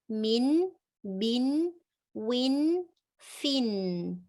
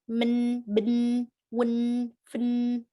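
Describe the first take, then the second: First: The short vowel is a clear i sound. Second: The short vowel is blurred and indistinct. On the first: The speaker calls it right. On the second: The speaker calls it wrong.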